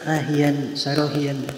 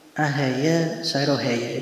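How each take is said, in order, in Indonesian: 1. Kata-katanya berakhir dengan bunyi '-ian'. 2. Kata-katanya berakhir dengan bunyi '-aya'. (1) "itu ada yang membaca ahian sarohian juga ada" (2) "Seperti yang bacaan ahaya sarohaya"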